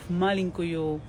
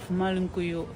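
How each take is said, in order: Both takes have the same delivery.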